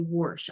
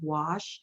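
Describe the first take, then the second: First: It is said with an r sound, like warsh. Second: It is said without an r sound. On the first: "they say whoosh. I have to do the whoosh" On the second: "instead of saying wash"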